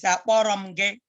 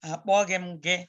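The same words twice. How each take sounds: First: "akpọrọ m gị" with an r sound in place of gh; dialect pronunciation. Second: "Akpọghị m gị" with a gh sound in the middle; central Igbo pronunciation. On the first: Teacher says they are the same, dialect pronunciation of "akpọrọ m gị". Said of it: "if it's your dialect". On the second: Teacher comparing it with the dialect, central Igbo pronunciation of "Akpọghị m gị". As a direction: say "Akpọghị m gị" the standard way, with "ghị". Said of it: "let's stick with the central Igbo". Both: Shown as a demonstration.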